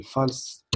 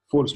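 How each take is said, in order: First: "false" said the French way; French-accented false. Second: "False" re-said in a more English way; corrected English false. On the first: Coder reading out the label value, French-accented "false". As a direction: say "false" with a poor English accent. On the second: Teacher apologising for his English accent, corrected "False". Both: Real, not acted. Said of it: "excusez-moi pour l'accent, mon accent anglais fâché".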